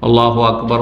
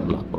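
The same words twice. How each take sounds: First: It is said loudly, out loud. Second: It is said quietly, under the breath.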